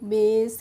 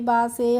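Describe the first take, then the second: First: It has an 'ay' vowel and a silent final e. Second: It has an 'ah' vowel and a sounded final e. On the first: The speaker calls it right. "कैसे पढ़ेंगे?" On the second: The speaker calls it wrong. "इस तरीके से नहीं पढ़ेंगे"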